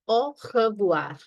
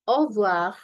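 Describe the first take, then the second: First: Said carefully with the first R sounded. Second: Said quickly with the first R dropped. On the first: "so it becomes au revoir" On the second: "much more faster way ... The first R is being eaten up"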